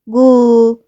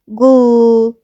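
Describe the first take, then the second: First: A short vowel separates the g and l. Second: The same.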